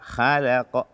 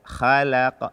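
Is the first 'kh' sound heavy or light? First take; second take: light; light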